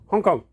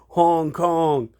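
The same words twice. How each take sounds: First: It is said in a Chinese-style accent. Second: It is said in a drawn-out American accent. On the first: The speaker calls it right. "if you speak Chinese, it's Hong Kong" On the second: The speaker calls it wrong. "not like the droned out American accent"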